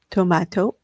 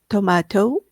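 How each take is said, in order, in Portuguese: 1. Isto é dito com sotaque britânico. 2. Isto é dito com sotaque britânico.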